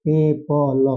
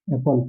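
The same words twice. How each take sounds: First: एप्पल said slowly and clearly as e-pal, stress on the first syllable; clear demo word. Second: एप्पल said again, softer and lower, falling at the end; soft repeat demo. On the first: Teacher models एप्पल for the students, clear and deliberate. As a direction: model एप्पल with a short open e and a doubled p. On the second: Teacher repeats एप्पल softly so the students can copy it. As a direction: echo एप्पल quietly with a falling close. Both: Shown as a demonstration. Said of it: "इसको पढ़ते हैं बाबू हम ऐसे ही".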